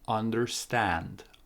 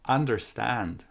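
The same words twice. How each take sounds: First: The first syllable has an 'uh' vowel. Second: The first syllable has an 'a' vowel. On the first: The speaker calls it right. "the first sound is uh, uh, under, under. The second sound is a, stand" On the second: The speaker calls it wrong. "What if you use a for the both of them?"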